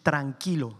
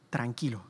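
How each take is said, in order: First: Said in the usual way. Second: "tranquilo" repeated much softer and lower, soothing. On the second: Shown as a demonstration. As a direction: soften "tranquilo" as if calming someone. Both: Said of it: "we say the word in Spanish".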